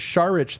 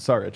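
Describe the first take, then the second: First: The name is said in its original, non-American way. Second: The name is said the American way. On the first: "So the Sharich thing" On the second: "it's American"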